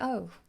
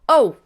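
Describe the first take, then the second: First: It sounds let down and deflated. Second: It sounds like a cry of physical pain. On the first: The speaker is disappointed. "it can also be disappointment" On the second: The speaker is physically hurt. "I've just stubbed my toe"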